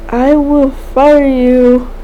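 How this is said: It is said in a warm, friendly tone. "he says it in a friendly tone"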